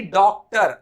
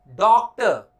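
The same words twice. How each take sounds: First: डॉक्टर slow, with full "tar"; pronunciation to avoid. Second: डॉक्टर slow, as "dawk-tuh"; correct pronunciation. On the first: Teacher showing the wrong form, डॉक्टर as "dawktar". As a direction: sound the final r of डॉक्टर. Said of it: "ना कि डॉक्टर". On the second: Teacher modelling slowly, first डॉक्टर as "dawktuh". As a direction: round the vowel, drop final r in डॉक्टर. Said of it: "ना कि". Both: Shown as a demonstration.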